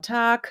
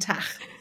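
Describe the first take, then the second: First: The word ends in a hard g. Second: The word ends in a ch sound. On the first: This is the standard German form. The speaker calls it right. "da gilt es wirklich Flugzeug oder Tag" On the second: This is a northern German dialect form. The speaker calls it wrong. "im norddeutschen Raum, da sagt man ja auch gern mal"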